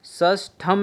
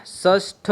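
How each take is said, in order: First: षष्ठम with an added am ending; wrong form. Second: षष्ठ ending right on aspirated ṭh; correct form. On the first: Teacher showing the wrong word, षष्ठम ending in am. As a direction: close षष्ठम on an m. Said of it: "नहीं होता है". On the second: Teacher giving the right word, षष्ठ with no am. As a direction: end षष्ठ without any m. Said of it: "होता है". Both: Shown as a demonstration.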